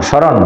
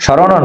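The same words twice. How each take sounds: First: "স্মরণ" as shoron, stopping on n; corrected "স্মরণ" with a closed ending; closed final n. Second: "স্মরণও" as shorono, open o at the end; extra final vowel. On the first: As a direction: end "স্মরণ" on the consonant, no vowel. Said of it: "যেহেতু হসন্ত আছে". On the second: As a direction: sound a vowel after the n in "স্মরণও". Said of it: "স্মরণও না, স্মরণ". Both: Shown as a demonstration.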